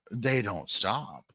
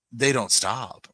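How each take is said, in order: First: "They don't stop" slowed right down, each word pressed; slow emphatic repeat. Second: Said in the usual way. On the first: Shown as a demonstration. Telling viewers about her yappy Yorkies, slow and emphatic. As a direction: drag out "They don't stop" to drive it home.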